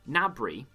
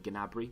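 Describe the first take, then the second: First: The name starts with an N sound. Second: The name starts with a hard G sound. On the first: The speaker calls it right. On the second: The speaker calls it wrong.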